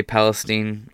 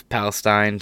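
First: "Palestine" with the last syllable said like "steen"; local steen ending. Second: "Palestine" with the last syllable rhyming with "fine"; stine ending. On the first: Host quotes how Ohioans say it, "Palestine" ending in STEEN. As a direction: end "Palestine" on an ee sound, as in "seen". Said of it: "people I know live in Ohio say". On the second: Host offers the version he will use, "Palestine" ending in STINE. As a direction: end "Palestine" on a long i, like "stine". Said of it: "gonna say Palestine". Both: Shown as a demonstration.

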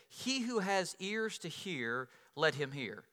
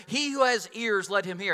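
First: Jesus quoted softly. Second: Louder, pressing quote of Jesus; emphatic quote. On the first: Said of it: "Then Jesus said". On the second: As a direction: drive home each word, listen up. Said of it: "at the end of the parable". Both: Retold or imitated.

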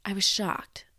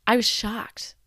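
First: Hushed, whispered I was shocked. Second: Louder, emphatic I was shocked. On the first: Echoing her own shock about the teacher, whispered. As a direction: drop to a stunned whisper. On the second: Telling how the teacher's answer hit her, said loudly. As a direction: declare the shock out loud. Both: Retold or imitated.

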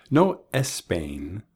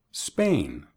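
First: "Espain" with an extra e before the s, slow; added e sound. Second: "Spain" starting straight on the s with no e; clean initial s. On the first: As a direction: start "Espain" on an e vowel. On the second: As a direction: hit the s in "Spain" with no vowel before it. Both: Shown as a demonstration. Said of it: "agregar una E al principio".

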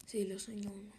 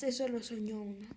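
First: Repeats "Sí, lo soñó uno" in a hushed whisper. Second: Said in the usual way. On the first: Shown as a demonstration. Narrator confirms the dream, whispering. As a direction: drop to a breathy secret whisper.

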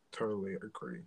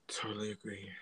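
First: Said in the usual way. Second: Soft unvoiced whisper. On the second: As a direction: breathe it out as a whisper. Echoed agreement, whispered.

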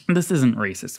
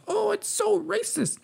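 First: Said in the usual way. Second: High, mocking sing-song of the critics; sarcastic mock. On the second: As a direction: jeer at the outrage in a much higher voice.

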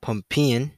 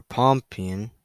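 First: Pumpion said PUM-pee-on, with an uh first; English form pumpion. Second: Pompion said POM-pee-on, with an open o first; slow pompion opening like "pom-pom"; alternative form pompion. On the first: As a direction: sound out pumpion with a higher pitch. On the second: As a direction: sound out pompion slowly. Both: Shown as a demonstration. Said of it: "The English turned it".

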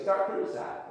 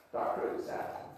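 First: Said in the usual way. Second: Hushed, breathy aside; whispering the phrase like a sly aside; whispered. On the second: Shown as a demonstration. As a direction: drop to a secret whisper. Repeated phrase, second take hushed.

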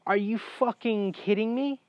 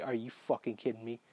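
First: High, rising disbelieving question; indignant, pitched up to the end; incredulous outrage. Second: Low, quick, quiet exasperation; muttered under the breath, salty. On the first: Patient learning his surgery was avoidable, incredulous. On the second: Patient seeing the bloody scalpel, salty. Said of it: "So I'm salty at this point". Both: Retold or imitated.

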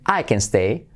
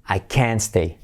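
First: Said in the usual way. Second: "can't" emphasized, falling, T silent; stress on CAN'T. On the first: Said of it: "lo que hacemos es enfatizar". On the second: Shown as a demonstration. Teacher demonstrating "no me puedo quedar", "can't" stressed. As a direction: lean on the whole word "can't". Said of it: "enfatizar toda la palabra".

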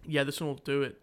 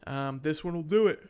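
First: Said in the usual way. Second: Talking through a yawn; words stretched by a yawn. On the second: Real, not acted. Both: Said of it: "Sorry, I'm yawning".

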